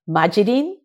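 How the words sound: It is said like majirin, learned by ear.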